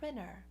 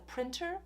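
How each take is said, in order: First: The T after the N is dropped. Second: The T after the N is clearly pronounced. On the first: "or maybe it's a printer" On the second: "So it's a printer"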